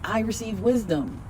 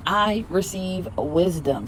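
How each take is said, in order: First: Said in the usual way. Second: Slower, settled affirmation. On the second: Shown as a demonstration. Repeating affirmation for viewers, slowly. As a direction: let wisdom land slowly. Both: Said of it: "Repeat after me".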